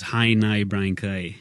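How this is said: Each vowel glides toward an 'ee' sound. This is how a northern speaker says it. "if you're up north, the vowel changes to an I"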